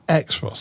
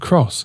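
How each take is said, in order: First: The name begins with an 'eks' sound. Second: The name begins with a 'k' sound. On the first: The speaker calls it wrong. "this X-Ross stuff, it's not going to fly anymore" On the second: The speaker calls it right. "it's called the Cross"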